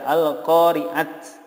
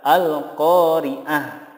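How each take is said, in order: First: The word ends in a bare t sound. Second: The word ends in a soft h sound. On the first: The speaker calls it wrong. "tidak diboleh dibaca al-qari'at" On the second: The speaker calls it right. "yang benar adalah al-qari'ah"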